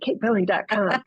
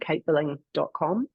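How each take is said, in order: First: It is said in a put-on American accent. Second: It is said in her usual non-American accent.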